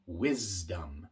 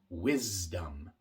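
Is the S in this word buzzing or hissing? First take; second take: buzzing; buzzing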